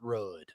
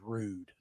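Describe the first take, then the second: First: The vowel is a short 'uh' sound. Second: The vowel is a long 'oo' sound. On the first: The speaker calls it wrong. "not rud" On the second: The speaker calls it right. "It is rood"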